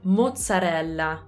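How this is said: It is said with an Italian accent. "In Italian, on the other hand, we say mozzarella"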